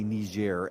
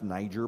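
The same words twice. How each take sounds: First: The name gets a non-American pronunciation. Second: The name gets an American pronunciation. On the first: This is the form the media want everyone to use. The speaker calls it wrong. "as some people on um, the media are intending that everyone should say" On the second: This is how Americans say it. The speaker calls it right. "It's pronounced Niger by Americans"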